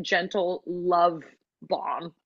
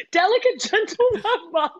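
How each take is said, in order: First: Said in the usual way. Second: Much higher, amused, laughing through the words. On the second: Real, not acted. Cracking up at own description of a castmate, laughing. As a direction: repeat it in a high laughing voice.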